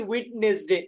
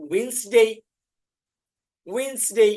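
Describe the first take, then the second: First: ওয়েডনেসডে with the d sounded; ওয়েডনেসডে pronounced letter by letter, d included; ওয়েডনেসডে, d said aloud; spelled-out old way. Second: ওয়েডনেসডে said as winsde, d dropped; ওয়েডনেসডে with a silent d, winsde; ওয়েডনেসডে, d left out. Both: Shown as a demonstration. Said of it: "ডি এখানে silent হবে".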